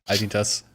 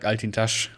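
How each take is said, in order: First: The name is said with a German accent. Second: The name is said with a Turkish pronunciation. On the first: "with a more German accent" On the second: "Turkish, so it might be like Altintash"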